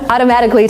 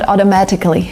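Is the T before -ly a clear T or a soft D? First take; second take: soft D; clear T. First: The T sound is a soft D-like tap. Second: The T sound is a clear T. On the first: The speaker calls it right. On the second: The speaker calls it wrong.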